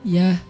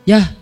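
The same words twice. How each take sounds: First: It sounds soft and friendly. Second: It sounds curt and harsh.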